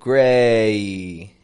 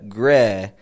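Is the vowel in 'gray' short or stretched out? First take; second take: stretched; short. First: The vowel is stretched out with a trailing glide. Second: The vowel is short, with no trailing glide. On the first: "It makes this kind of ye sound at the end of it" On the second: "it's not just a gray"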